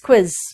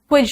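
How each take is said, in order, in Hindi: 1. शब्द z की आवाज़ से खत्म होता है। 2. शब्द j की आवाज़ से खत्म होता है। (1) "इट्स क्विज" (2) "क्विज नहीं कहना"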